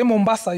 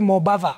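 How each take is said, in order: First: The s sound is a clear hiss. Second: The s sound becomes a lisped th. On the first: The speaker has teeth. "If you say Mombasa, you'll find that your teeth are actually meeting" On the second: The speaker has no teeth. "People without teeth will say Mobatha"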